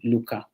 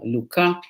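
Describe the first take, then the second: First: Both syllables carry a high tone. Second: A low tone is followed by a high tone. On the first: "two high tones" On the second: "a low versus a, a, a, a followed by a high tone"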